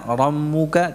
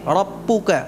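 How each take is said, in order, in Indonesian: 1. Bunyi b lemah dan longgar. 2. Bunyi b mirip p. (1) "tidak diucapkan dengan lemah ba-nya" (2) "Tidak pula dibaca dengan P"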